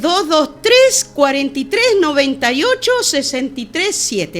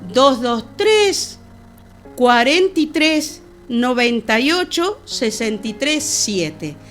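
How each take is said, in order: First: It is said at normal speed. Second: It is said slowly.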